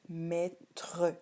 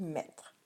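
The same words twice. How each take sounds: First: The final e is sounded as an extra syllable. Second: The final e is silent. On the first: This shows how the word is spelled. The speaker calls it wrong. "tu devrais écrire mettre. Mais on ne prononce pas comme ça" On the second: This is how the word is normally spoken. The speaker calls it right. "on dit mettre"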